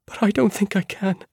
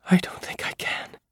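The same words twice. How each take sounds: First: High, pleading and scared; frightened plea. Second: Shaky, frightened whisper; trembling whisper. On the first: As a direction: beg off, voice rising in fear. Same words, voiced and pleading. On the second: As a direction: breathe it out, trembling with fear. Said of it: "Her voice was a trembling whisper". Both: Acted.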